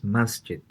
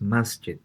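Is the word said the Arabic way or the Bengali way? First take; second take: Arabic; Arabic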